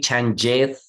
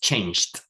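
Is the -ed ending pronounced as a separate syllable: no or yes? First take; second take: yes; no. First: The ending is said as an extra syllable. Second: The ending adds no extra syllable. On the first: The speaker calls it wrong. "we don't say changed" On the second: The speaker calls it right. "just changed"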